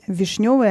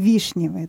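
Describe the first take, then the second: First: The stress is on the second syllable. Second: The stress is on the first syllable. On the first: The speaker calls it right. "ударение на вот именно вишневое ... то есть на второй слог падает" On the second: The speaker calls it wrong. "а не вишневое"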